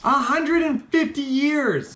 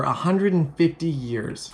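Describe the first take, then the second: First: High, slow, stunned repeat; hammed-up astonishment; incredulous exclamation. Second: Said in the usual way. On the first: Real, not acted. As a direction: draw it out high in comic disbelief.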